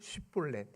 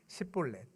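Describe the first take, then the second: First: The word begins with a sh sound. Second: The word begins with a plain s sound. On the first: The speaker is a Gileadite. The speaker calls it right. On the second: The speaker is an Ephraimite. The speaker calls it wrong.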